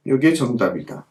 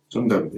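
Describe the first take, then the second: First: 요게 hit firmly with a falling close; stress on 요게. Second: 정답이다 said again much softer and lower, a falling murmur; quiet echo. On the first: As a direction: press 요게, then let 정답이다 fall. (요게를 힘주어 강조하며 내려 맺기) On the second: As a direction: repeat 정답이다 under your breath. (정답이다를 작고 낮게 되뇌듯) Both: Shown as a demonstration. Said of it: "요게 정답이에요".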